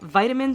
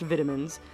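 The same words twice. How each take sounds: First: It is said the American way. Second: It is said the British way.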